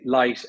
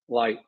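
First: It has a light L, Irish style. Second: It has a dark L, American style.

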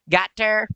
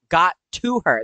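First: The word 'to' is swallowed into 'got her'. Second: All three words are said, including 'to'. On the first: "My southern accent really takes over sometimes" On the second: "but no, got to her. That's three words in there"

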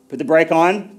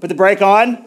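First: It is said at the lowest volume. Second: It is said at a raised volume.

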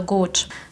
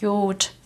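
First: The word is said with a standard pronunciation. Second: The word is said with a regional pronunciation. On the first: It is the standard High German form. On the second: It is said jokingly, as a colloquial variant.

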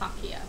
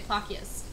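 First: The name ends on a vowel sound. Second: The name ends with an s sound. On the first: This is how it was said to be pronounced. "I was told it's pronounced Plakia" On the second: This is how most people say it. "Most people say Plakias"

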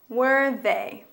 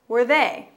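First: It is said at a slower pace. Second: It is said at a faster pace.

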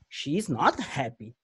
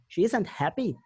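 First: The words 'is not' are said in full. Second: The words 'is not' are contracted to 'isn't'. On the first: The speaker calls it wrong. "a gente não escuta eles falar assim" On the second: The speaker calls it right. "A gente escuta assim"

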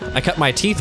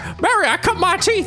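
First: It is said in the speaker's ordinary voice. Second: It is said in an imitated old-film-star voice. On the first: "to just say with your human voice" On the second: "That's Jimmy Stewart"

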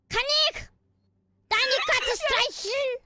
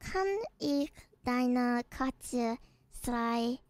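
First: It is said in an angry tone. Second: It is said in a calm, neutral tone.

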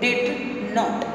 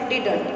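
First: It is said as two separate full words. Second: It is said as one contracted word. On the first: "full form में क्या पढ़ेंगे" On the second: "हम उसको पढ़ते हैं डिडंट"

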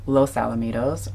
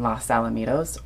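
First: 'Los' is given a Spanish-style pronunciation. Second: 'Los' is given an anglicized local pronunciation. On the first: It follows the Spanish origin of the name. "because technically this is correct" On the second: The speaker grew up nearby and says it that way. "I'm in the habit of saying Los Alamitos"

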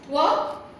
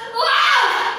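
First: It is said in a thoughtful way. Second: It is said in an angry way.

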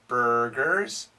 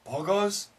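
First: The R sounds are clearly pronounced. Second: The R sounds are dropped. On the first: The speaker calls it right. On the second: The speaker calls it wrong.

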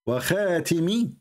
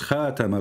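First: The vowel after the t is i. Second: The vowel after the t is a. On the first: The speaker calls it wrong. "it kasra" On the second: The speaker calls it right. "this is fatha, so you are wrong"

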